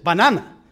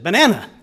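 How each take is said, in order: First: "Banana" with open Spanish ah vowels; Spanish-style "bah-NAH-nah" for "Banana"; teacher's Spanish pronunciation. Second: "Banana" with a flat American middle vowel; English-speaker's failed copy of Spanish "Banana"; learner's English pronunciation. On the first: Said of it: "she didn't say it that way". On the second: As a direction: repeat BANANA the English way, ba-NAN-a. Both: Retold or imitated.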